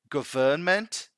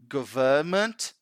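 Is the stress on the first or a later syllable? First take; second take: later; later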